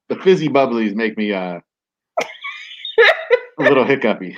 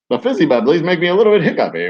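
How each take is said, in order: First: It is said in his normal voice. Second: It is said in a 1920s barnstormer voice.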